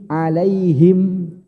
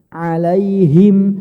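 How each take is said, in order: The two takes are said the same way.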